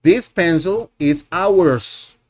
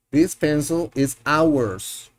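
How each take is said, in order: First: Slow, clear teacher model; slow classroom model sentence. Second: Slow classroom repeat; slow model sentence, repeated. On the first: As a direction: say it slowly so learners can follow. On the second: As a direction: say it again slowly for them to copy. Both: Shown as a demonstration. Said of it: "Este es nuestro lápiz".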